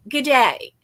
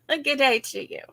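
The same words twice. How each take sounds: First: Said in the usual way. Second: A light, half-hearted Australian "Good day to you"; mock Australian accent. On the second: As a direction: toss off a playful Australian greeting. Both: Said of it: "I'll be Australian".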